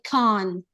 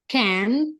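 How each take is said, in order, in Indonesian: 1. Itu diucapkan dengan aksen Inggris. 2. Itu diucapkan dengan aksen Amerika. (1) "mereka sering menggunakan" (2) "yang mana itu adalah American"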